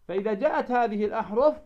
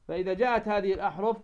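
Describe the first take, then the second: No difference in how they are said.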